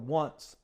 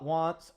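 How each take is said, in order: First: The vowel is like the vowel in 'runts'. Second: The vowel is like the vowel in 'fonts'.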